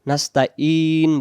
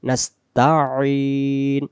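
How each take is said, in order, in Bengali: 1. মাঝের ব্যঞ্জনটি সাধারণ গ্লটাল স্টপ। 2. মাঝের ব্যঞ্জনটি গলায় চেপে বলা হয়। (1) "নাস্তা ইন এমন বললে এই আইনটা হামজা হবে" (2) "এবং গলা চাপ হবে একটু"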